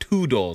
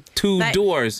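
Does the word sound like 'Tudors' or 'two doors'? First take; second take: Tudors; two doors. First: It sounds like the royal family name Tudors. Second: It sounds like the English words 'two doors'. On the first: The speaker calls it right. "utan two doors" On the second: The speaker calls it wrong. "vi säger inte two doors"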